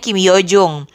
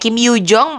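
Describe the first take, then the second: First: The last syllable has an u vowel. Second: The last syllable has an open o-like vowel. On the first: The speaker calls it wrong. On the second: The speaker calls it right.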